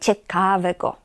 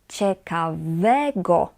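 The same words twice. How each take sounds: First: The stress is on the syllable ka. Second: The stress is on the syllable we. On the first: The speaker calls it wrong. "Nie ciekawego" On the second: The speaker calls it right. "Na we"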